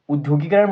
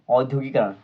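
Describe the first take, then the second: First: The word begins with a short 'u' sound. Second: The word begins with an 'au' vowel sound. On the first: The speaker calls it wrong. "उद्योगिकरण मत पढ़िएगा" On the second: The speaker calls it right. "औद्योगिकरण जो है उसको वही पढ़िएगा"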